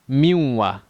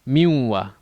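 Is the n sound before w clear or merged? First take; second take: merged; merged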